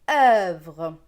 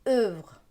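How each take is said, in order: First: The vowel is said with an open sound. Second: The vowel is said with a closed sound. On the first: This is how it is said in the speaker's region. "avec un E un peu plus ouvert" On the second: This is how it is said in some regions. "avec un E bien fermé"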